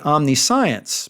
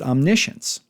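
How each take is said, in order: First: The ending sounds like the word science. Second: The ending does not sound like science. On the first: It keeps the word meaning knowledge. The speaker calls it right. "it should be omniscience" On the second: It is the usual everyday pronunciation. The speaker calls it wrong. "we pronounce it omniscience"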